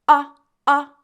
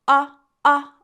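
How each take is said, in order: No difference in how they are said.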